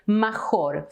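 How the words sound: It is said with a learner's mispronunciation. The speaker calls it wrong.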